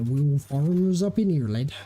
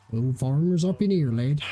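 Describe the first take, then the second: First: Rustic English farmer voice; farmer accent. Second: Rustic English farmer accent again on request. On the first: Retold or imitated. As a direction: put on a broad country farmer accent. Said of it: "was it". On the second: Shown as a demonstration. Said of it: "do the farmers have, like, a certain accent?".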